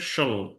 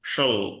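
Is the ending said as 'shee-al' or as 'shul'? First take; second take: shul; shul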